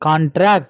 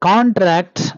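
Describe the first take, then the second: First: The stress is on the last syllable. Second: The stress is on the first syllable. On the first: The word is used as a verb. "stress at the end for the verb" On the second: The word is used as a noun. "stress at the beginning for the noun"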